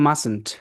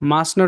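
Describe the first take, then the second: First: It is squeezed into one contracted word. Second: It is said as two full words.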